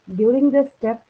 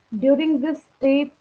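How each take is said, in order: First: Said in the usual way. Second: Very slow, every word drawn out for note-taking; dictation pace. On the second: Shown as a demonstration. Teacher dictating to her class, very slow and deliberate. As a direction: spell it out slowly so the class can write it down.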